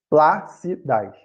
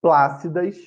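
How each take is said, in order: First: "plácidas" slowly in pieces, PLÁ-ci-das; teacher splitting "plácidas" into slow syllables, stressed PLÁ; stress on antepenultimate syllable. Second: Said in the usual way. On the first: Shown as a demonstration. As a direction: sound out "plácidas", leaning on "plá". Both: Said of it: "a sílaba tônica é a antepenúltima".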